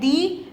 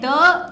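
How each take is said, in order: First: It ends in a long 'ee' vowel. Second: It ends in a short 'uh' vowel. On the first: It comes before a vowel sound. "एक है दी" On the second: It comes before a consonant sound. "एक है द"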